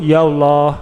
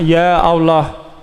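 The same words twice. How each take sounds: First: Ya runs straight into Allah without a catch. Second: A glottal catch separates ya from Allah. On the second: "memutus hamzah maksudnya"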